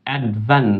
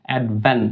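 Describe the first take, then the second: Both takes have the same delivery.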